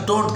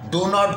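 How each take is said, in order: First: It is said as one contracted word. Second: It is said as two full separate words.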